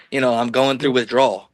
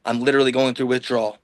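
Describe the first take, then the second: First: Said in the usual way. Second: "literally" stressed with a falling tune. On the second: Real, not acted. Telling the host about withdrawal, stressing "literally". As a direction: lean hard on "literally", a bit faster.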